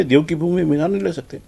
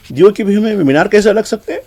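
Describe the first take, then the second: First: Softer, falling statement leaning on نہیں; flat sarcastic agreement. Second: Raised, rising indignant question on ہیں; mocking rhetorical question. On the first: Retold or imitated. Commentator answers his own question in a soft, falling, sarcastic tone. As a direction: settle it down quietly, نہیں pressed and falling. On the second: Commentator mocks the activists' claim with a rising, raised question. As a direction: toss it up high as a scoffing challenge, rising at ہیں. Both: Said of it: "وہ بات صحیح ہے".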